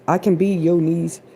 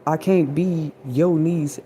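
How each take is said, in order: First: "can" lifted and pressed as the key word; stress on can. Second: Can't drawn out slowly and leaned on; stress on can't. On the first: Correcting herself to say what she can be, stress on can. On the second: Contrasting what she can't be, stress on can't. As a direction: hold "can't" long and falling. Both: Shown as a demonstration.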